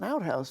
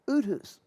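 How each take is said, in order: First: The first syllable sounds like the word 'out'. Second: The first syllable sounds like 'oo' without a 't'. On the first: "they had an outhouse family" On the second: "only they pronounce it Uthus"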